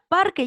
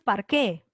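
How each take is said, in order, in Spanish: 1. El acento cae en la primera sílaba. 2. El acento cae en la última sílaba. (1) "parque lleva fuerza de voz en par" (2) "tú no dices parqué"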